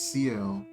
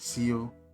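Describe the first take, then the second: First: The name is said as two letters. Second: The name is said as one word. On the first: The speaker calls it right. "It's C L" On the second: The speaker calls it wrong. "I was pronouncing it Seal"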